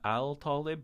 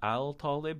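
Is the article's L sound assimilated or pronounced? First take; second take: pronounced; pronounced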